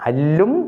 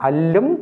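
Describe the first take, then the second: The two takes are said the same way.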